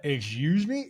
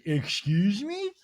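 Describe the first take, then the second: First: Said in the usual way. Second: Slow, drawn-out, higher mock British excuse me. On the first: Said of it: "everybody's like". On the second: Meredith offended by Whitney's remark, mock British. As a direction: stretch out Excuse me? like an offended Brit. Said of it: "Meredith goes".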